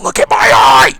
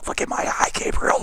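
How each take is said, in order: First: Very loud, strained yell; mock menacing shout. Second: Forced stage whisper, growing stronger; intense whisper. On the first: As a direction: burst out like a crazed villain. Mock creepy demand peaks. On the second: Pretend. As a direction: hiss a creepy command, building up. Whispered build-up to a shout.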